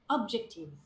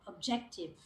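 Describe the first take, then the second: First: The stress falls on a different syllable. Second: The stress falls on the expected syllable. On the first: The speaker calls it wrong. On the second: The speaker calls it right.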